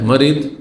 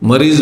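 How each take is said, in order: First: The word ends with a d-like sound. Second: The word ends with a z-like sound. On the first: This follows the letter dad. The speaker calls it right. "মরিদ বলেন" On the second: This is how Urdu speakers say it. The speaker calls it wrong. "রোগীকে মরিজ বলছেন উর্দু ওয়ালারা"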